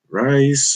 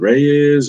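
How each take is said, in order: First: The name rhymes with 'nice', one syllable. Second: The name has two syllables, like 'ray-yes'. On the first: "Is it Reyes or Rice or?" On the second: "Is it Reyes or Rice or?"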